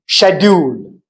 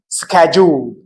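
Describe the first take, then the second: First: It is said with a British accent. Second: It is said with an American accent. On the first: "for the British English, it is pronounced like schedule" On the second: "in American English, they say pronounce it like schedule"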